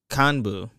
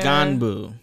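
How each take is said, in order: First: The word starts with a k sound. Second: The word starts with a g sound. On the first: The speaker calls it right. "but it's pronounced K K A N B U" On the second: The speaker calls it wrong. "It's a G G A N B U"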